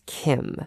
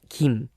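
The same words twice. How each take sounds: First: The first sound is a strong English K. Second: The first sound is a soft, unaspirated k. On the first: This is the way it is said in English. "you just like usually use K, so it's Kim" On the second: This is the usual Korean way to say it. "we usually say it Kim"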